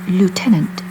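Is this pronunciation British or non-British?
non-British. It is said with a non-British pronunciation. "not lieutenant"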